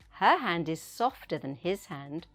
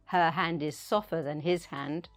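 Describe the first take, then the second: First: The T in softer is pronounced. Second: The T in softer is dropped. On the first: The speaker calls it right. "say the T sound" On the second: The speaker calls it wrong. "Don't say"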